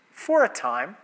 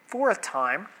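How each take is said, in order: Both takes have the same delivery.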